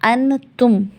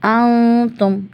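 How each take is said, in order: First: The n is pronounced clearly and fully. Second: The n is hidden in a nasal sound. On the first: The speaker calls it wrong. "ऐसे नहीं निकलेगा" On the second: The speaker calls it right. "नून को छुपाया हमने"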